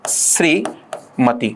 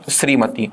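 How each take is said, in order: First: The final vowel is short. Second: The final vowel is long. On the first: The speaker calls it wrong. "ये मती गलत होता है" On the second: The speaker calls it right. "सही होगा श्रीमती"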